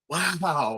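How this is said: It sounds impressed and delighted.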